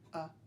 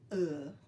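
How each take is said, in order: First: It is short, simple and clipped. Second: It is drawn out with a West Texas drawl. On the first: The speaker calls it right. "it's going to be short. It's going to very simple" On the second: The speaker calls it wrong. "you're not going to say it in the West Texas way"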